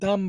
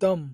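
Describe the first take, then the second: First: The vowel is a long open 'aa' sound. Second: The vowel is a short 'o'-like sound. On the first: The speaker calls it wrong. "এখানে আপনারা দাম বলবেন না" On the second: The speaker calls it right. "এটা হচ্ছে দম"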